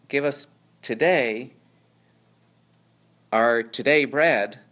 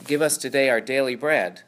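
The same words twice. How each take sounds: First: "our today bread" slowed, with "today" leaned on louder; stress on today. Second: Said in the usual way. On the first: Shown as a demonstration. Teacher reworking the verse for his class, stressing "today". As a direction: land hard on the second "today". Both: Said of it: "puts the word today at the end".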